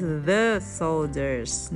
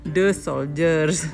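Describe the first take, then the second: First: The th sound in 'the' is clearly heard. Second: The th sound in 'the' is barely heard. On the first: The speaker calls it right. "tapi harus the soldiers" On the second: The speaker calls it wrong. "Di situ TH-nya kurang kedengeran ya... Habis itu hilang lagi jadi the soldiers"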